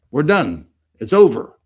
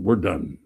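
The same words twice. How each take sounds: First: We're done said louder, punching done; emphatic loud repeat. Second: Said in the usual way. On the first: Real, not acted. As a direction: drive it home, louder.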